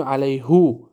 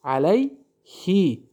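First: علیهو ending in "hu", the rejected reading; علیهو said as "alayhu", marked as wrong; wrong form. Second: علیهی drawn out slowly, ending in "hi"; very slow علیهی with a final "hi"; correct form. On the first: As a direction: say علیهو with "hu" to show the mistake. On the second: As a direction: recite علیهی slowly as "alayhi". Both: Shown as a demonstration.

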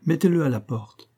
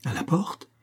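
First: Higher-pitched, decided command, falling at the end; firm order. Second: Higher, rising "à la porte?"; astonished exclamation. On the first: Philosopher telling the host to evict him, firm order. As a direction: order "à la porte" as a settled verdict. Philosopher's verdict, then echoed. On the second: Academician startled by the philosopher's order, astonished exclamation. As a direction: echo the order in disbelief. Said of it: "s'exclama l'académicien". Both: A narrator's reading.

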